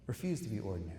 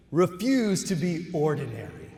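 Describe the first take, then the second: First: Softer, lower repeat; quiet echo. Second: Louder, emphatic declaration; rousing call. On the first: Speaker repeating the call to graduates, softer and lower. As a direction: let it sink in gently. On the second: Speaker rallying new doctors, loud and emphatic. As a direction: proclaim it to the graduates. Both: Acted.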